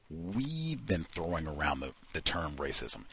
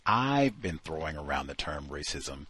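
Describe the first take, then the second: First: "we've" stressed, the rest fading softer; mocking royal we. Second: I've stressed as the single author; "I've" hit firmly, the correct singular form. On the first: Host mocking the author's royal we, stressing we've. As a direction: lean on "we've" and let the phrase trail off softly. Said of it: "She uses the royal we". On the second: Shown as a demonstration. Host reading the corrected sentence, stressing I've. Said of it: "but as opposed to saying".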